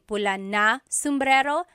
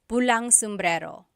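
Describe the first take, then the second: First: The word na is said as a separate word. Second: An ng sound is joined onto pula. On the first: "Instead of saying" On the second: "you can make the contraction. Add ng to the end"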